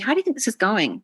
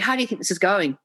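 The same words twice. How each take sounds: First: It sounds open and genuinely curious. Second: It sounds dominant, as if the answer is known.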